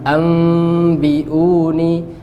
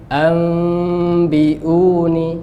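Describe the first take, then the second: Both takes have the same delivery.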